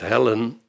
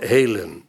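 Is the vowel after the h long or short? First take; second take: short; long. First: The e vowel is said short. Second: The e vowel is said long. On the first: The speaker calls it wrong. "Dat je niet zegt hellen" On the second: The speaker calls it right. "de functie om de e te verlengen"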